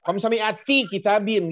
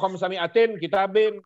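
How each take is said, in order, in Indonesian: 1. Kata pertama berakhir tanpa bunyi n. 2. Kata pertama berakhir dengan bunyi n. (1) "begitu baru enak didengarnya" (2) "Jangan bilang wa khamsami'atin kitabin. Jelek bahasanya"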